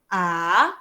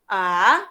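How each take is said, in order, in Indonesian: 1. Nadanya naik sedikit ke atas. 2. Nadanya naik sedikit ke atas.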